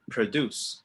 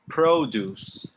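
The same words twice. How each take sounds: First: The first syllable sounds like 'pra'. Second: The first syllable sounds like 'pro'. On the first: It means to make or do. "And now repeat the verb" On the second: It means fruit and vegetables. "repeat the food after me"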